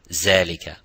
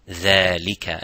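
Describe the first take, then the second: First: It starts with a z sound. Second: It starts with a light th sound. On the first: The speaker calls it wrong. "Neither zalika" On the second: The speaker calls it right. "empty mouth"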